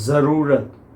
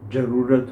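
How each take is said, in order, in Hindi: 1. यह 'z' ध्वनि से शुरू होता है। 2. यह 'j' ध्वनि से शुरू होता है।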